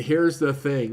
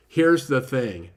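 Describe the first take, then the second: First: Said in the usual way. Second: Slow "Here's the thing," with weight on "Here's"; on-ramp phrase. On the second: Shown as a demonstration. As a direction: lean into "Here's" slowly, falling at the end. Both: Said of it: "transitions like".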